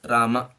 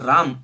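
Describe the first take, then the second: First: The word ends with a short final vowel. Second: The word ends without a final vowel. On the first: The speaker calls it right. "It's Rama" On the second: The speaker calls it wrong. "but not Ram also"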